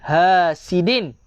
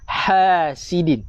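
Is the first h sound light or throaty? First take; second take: light; throaty. First: The first h is a light, plain h. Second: The first h is strong from the throat. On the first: The speaker calls it wrong. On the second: The speaker calls it right. "Ha, pedas"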